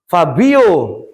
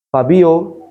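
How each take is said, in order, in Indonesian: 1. Nama itu dipanggil dengan suara yang jelas lebih tinggi. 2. Nama itu dipanggil dengan suara biasa dan lembut. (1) "intonasinya agak dinaikkan sedikit" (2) "kalau dipanggil sekali"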